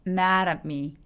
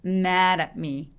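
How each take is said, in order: No difference in how they are said.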